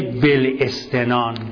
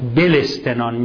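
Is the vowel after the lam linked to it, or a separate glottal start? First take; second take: separate; linked. First: The vowel starts separately with a glottal catch. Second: The lam links straight into its i vowel. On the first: The speaker calls it wrong. "نه بلستنان" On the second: The speaker calls it right. "یعنی اون همزه تلفظ نمیشه ولی لام مکسوره"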